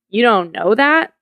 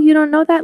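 First: The question sounds scornful and condescending. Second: The question sounds warm and kind. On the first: The listener is being looked down on and feels humiliated. "as opposed to, you don't know that?" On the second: The listener is being helped and feels empowered. "if we're supportive, like, oh, you don't know that? Let me show you"

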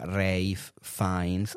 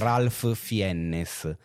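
First: The name is said the native English way. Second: The name is read out as it is written. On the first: This is how the name is actually said. The speaker calls it right. "si pronuncia Ralph Fiennes" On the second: This is how the written name looks. The speaker calls it wrong. "se tu leggi Ralph Fiennes"

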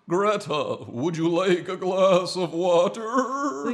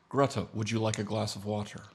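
First: The voice wavers with vibrato. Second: The voice is steady, without vibrato.

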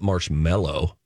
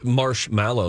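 First: The second part sounds like 'mellow'. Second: The second part sounds like 'mallow'. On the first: The speaker calls it wrong. "not marshmallow" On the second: The speaker calls it right. "it's probably marshmallow, It's M-A-L-L-O-W"

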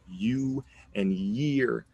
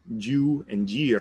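First: The words begin with a clear Y sound. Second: The words begin with a sound other than Y. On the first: The speaker calls it right. "we're saying you and year" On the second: The speaker calls it wrong. "It's not you and year"

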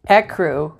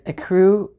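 First: It does not sound like 'a crew'. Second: It sounds like the phrase 'a crew'. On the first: It has no meaning apart from the colour. "which means nothing" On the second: It names a group of sailors on a boat. "ecru on the boat ready to sail"

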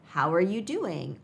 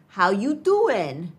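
First: The word 'are' is pronounced. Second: The word 'are' is dropped entirely. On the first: It is a formal greeting. "the formal" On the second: It is a casual, friendly greeting. "is shorter and casual"

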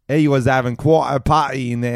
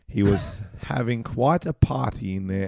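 First: It is read in an old London man's accent. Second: It is read in an old Australian man's accent. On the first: "I'll do old man English" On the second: "That was just old man Australian?"

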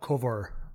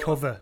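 First: The final R is pronounced, Somerset-like. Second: The final R is dropped, Lancashire style.

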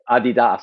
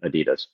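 First: It is said the way non-Americans say it. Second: It is said the way Americans say it. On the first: The speaker calls it right. "sounds much better" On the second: The speaker calls it wrong. "We say it in the wrong way"

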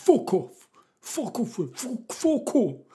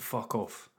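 First: It is said in a put-on teenage voice. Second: It is said in the speaker's plain voice. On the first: "because he was a teenage boy. He was" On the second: "He didn't say it like that"

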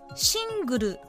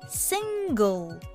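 First: It ends with an added 'ru' vowel sound. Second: It ends with a bare L and no vowel. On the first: The speaker calls it wrong. "シングルではなく" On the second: The speaker calls it right. "るはあまり発音しませんね"

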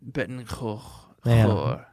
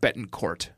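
First: The name is said with a French R. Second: The name is said with an English R. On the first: "I'm not hearing that French R" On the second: "if you pronounce it Jeannie, you would also pronounce it Betancourt"

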